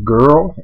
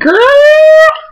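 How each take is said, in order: First: It is said flat at a normal pitch. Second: It is said loudly at a high pitch.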